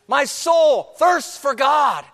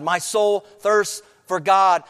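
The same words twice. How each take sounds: First: Slow, high, loud cry of the verse; preaching shout. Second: Said in the usual way. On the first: Acted. Preacher repeating the verse louder, shouted. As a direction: shout it out slowly to the church.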